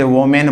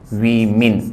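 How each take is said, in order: First: The first vowel sounds like 'o'. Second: The first vowel sounds like 'i'. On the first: The speaker calls it wrong. "जैसे वोमेन बोलते हैं" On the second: The speaker calls it right. "लेकिन सही उच्चारण क्या होता है"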